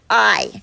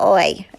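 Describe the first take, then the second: First: The vowel sounds like plain eye, American style. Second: The vowel sounds like oi, Irish style. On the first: "instead of I" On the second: "when I learned how to do an Irish accent"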